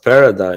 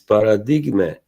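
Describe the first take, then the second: First: It is said with an English pronunciation. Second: It is said with an Italian pronunciation. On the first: The speaker calls it wrong. "this is pro- not pronounced paradigm" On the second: The speaker calls it right. "It is an Italian name. It's Paradigme"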